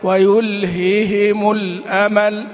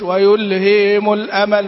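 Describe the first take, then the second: First: Both h sounds are pronounced clearly and separately. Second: The repeated h sounds are merged and weakened. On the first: The speaker calls it right. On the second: The speaker calls it wrong.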